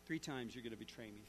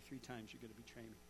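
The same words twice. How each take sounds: First: Low, soft voice of a remembered warning; Jesus' words come back to him softly, low; echoing memory. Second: Much softer, faster, low repeat like a distant echo; fading echo. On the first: Preacher voices Jesus' words echoing in Peter's mind, low and soft. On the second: Preacher repeats Jesus' words fading in Peter's mind, faster and fainter. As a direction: let it fade away as the echo dies. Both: Retold or imitated. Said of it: "Jesus' words echoing in Peter's mind".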